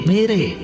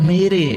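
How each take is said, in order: No difference in how they are said.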